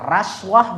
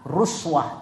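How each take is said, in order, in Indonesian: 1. Vokal pertama adalah bunyi a. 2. Vokal pertama adalah bunyi u. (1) "bisa dibaca raswah" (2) "bisa dibaca ruswah"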